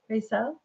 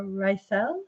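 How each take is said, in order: First: Rysel with first syllable like "ray"; trying another pronunciation. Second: Rysel with first syllable like "rye"; trying a pronunciation. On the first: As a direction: ask Rysel softly, saying RAY-sel, rising. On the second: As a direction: ask Rysel softly, saying RYE-sel, rising. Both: Shown as a demonstration. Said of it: "Am I saying it right?".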